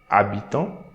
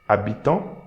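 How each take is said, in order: Both takes have the same delivery.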